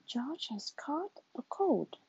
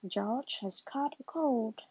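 First: Said in the usual way. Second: Slow, calm doctor diagnosing. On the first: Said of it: "George has caught a cold, says Doctor". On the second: Acted. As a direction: give the diagnosis slowly like a kind doctor. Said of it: "says Doctor Brown Bear".

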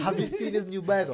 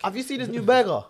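First: Higher and louder, laughing through the question; repeating it loud while laughing at the teasing; laughing insist. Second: Higher and louder, pushing through the teasing; cutting in loudly to insist about the burger. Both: Real, not acted.

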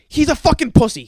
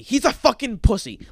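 First: Angry outburst. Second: Said in the usual way. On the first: Real, not acted. Angry rant about the player.

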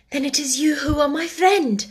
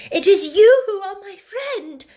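First: Higher, touched first realization of who he is; moved realization. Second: Much higher and louder, overflowing feeling; emotional repeat. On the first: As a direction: say it as it dawns on you, moved. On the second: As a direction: repeat it with all your heart. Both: Acted. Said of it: "she said".

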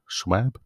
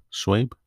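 First: "Schwab" tried as /ʃwæb/ with a questioning rise; trying a pronunciation. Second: "Schwab" tried as /ʃweɪb/, rhyming with babe, with a questioning rise; trying a pronunciation. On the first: Reader unsure of author's name, testing "Schwab" as shwab. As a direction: test "Schwab" with a flat a, asking. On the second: Reader unsure of author's name, testing "Schwab" as shwayb. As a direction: test "Schwab" with a long ay sound, asking. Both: Real, not acted. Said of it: "I can't pronounce the last name".

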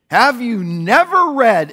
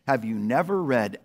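First: Louder, slower challenge with never; forceful rebuke. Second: Lower, quieter reading of the line; soft quote. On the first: Jesus answering indignant priests, loud slow rebuke. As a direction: confront them with the question. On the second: Pastor quoting Psalm eight to congregation, soft and low. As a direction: read the psalm words gently. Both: Acted.

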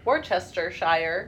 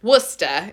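First: Worcestershire said slow with every syllable, wor-chester-shire; overpronounced Worcestershire; full spelling-out. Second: East Coast accent. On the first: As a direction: sound out Worcestershire letter by letter. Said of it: "I wanna say". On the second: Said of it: "if you got the right accent". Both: Shown as a demonstration.

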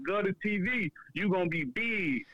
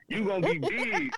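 First: Lightly voiced hype-man catchphrase; a hint of a rapper's shout-out tag; Lil Webby sound bite. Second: Lil Webby sound bite. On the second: Retold or imitated. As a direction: punch it up like a rapper's tag. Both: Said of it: "He made his sound bite like".

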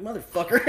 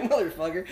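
First: Mock outrage. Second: Laughing curse. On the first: Realizing the condoms are Magnums. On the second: Retold or imitated.

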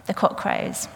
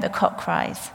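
First: Hushed whisper, fixing it to crows; whispered correction. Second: Hushed whisper, misspeaking cries; whispered slip. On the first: Preacher corrects herself in a hushed whisper. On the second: Preacher whispers the rooster moment, wrong word first. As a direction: whisper the cock cries, then catch it. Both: Real, not acted.

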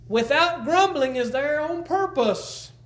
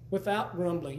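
First: Slow, high emphasis on grumbling; "Without grumbling" drawn out slow, higher and louder; emphatic. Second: Said in the usual way. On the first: Shown as a demonstration. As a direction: press hard on "Without grumbling".

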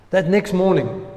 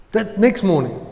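The two takes are said the same way.

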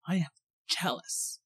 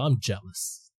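First: Very soft, breaking it up word by word; hushed, with a pause before the last word; hushed emphasis. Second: Said in the usual way. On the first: Real, not acted. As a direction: drop to a near-whisper to confess it. Repeats the admission for effect.

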